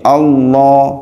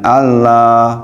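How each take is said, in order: First: The L is heavy, the vowel sounds like 'o'. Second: The L is light, with a plain 'a'. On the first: The speaker calls it right. "lamnya harus tebal ... seperti huruf O itu loh" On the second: The speaker calls it wrong.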